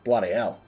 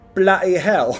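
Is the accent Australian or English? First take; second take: Australian; English. First: It is said in an Australian accent. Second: It is said in a put-on English accent.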